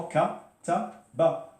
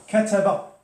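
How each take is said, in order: First: Kataba split into ka, ta, ba; teacher spelling out each sound of Kataba. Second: Said in the usual way. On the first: Shown as a demonstration. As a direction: say Kataba slowly, syllable by syllable, pitched high. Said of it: "Qu'est-ce qu'on entend?".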